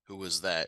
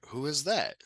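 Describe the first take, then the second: First: The voice stays level to the end. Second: The voice rises at the end like a question. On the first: The words alone mark it as a question. The speaker calls it right. "in just kind of that straight manner" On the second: The tune marks it as a question. The speaker calls it wrong. "that kind of tone in your voice"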